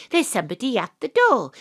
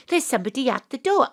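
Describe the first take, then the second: First: Said in the usual way. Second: Quick, pressing repeat of the same line; hurried repeat. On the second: Acted. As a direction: rush it the second time. Panto host repeats to audience.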